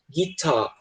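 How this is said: The final R sound is dropped. "no sotaque britânico, eles tendem a ignorar o som do R"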